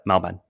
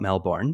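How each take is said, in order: First: The word is said in a reduced way. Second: The word is said carefully and fully. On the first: The speaker is lazy. The speaker calls it wrong. "lazy Australians call it Melbourne" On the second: The speaker is well spoken. The speaker calls it right. "well spoken Australians call it Melbourne"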